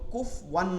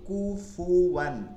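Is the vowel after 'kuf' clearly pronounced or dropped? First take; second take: dropped; clear. First: The vowel after 'kuf' is dropped. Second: The 'fu' vowel is clearly pronounced. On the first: The speaker calls it wrong. "না বলি" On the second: The speaker calls it right. "ফু উচ্চারণটা একদম ক্লিয়ার করতে হবে পেশ দিয়া"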